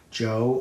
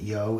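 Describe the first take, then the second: First: The name begins with a J sound. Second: The name begins with a Y sound.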